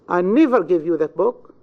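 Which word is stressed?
never. The stress falls on the word never. "In the second, on never"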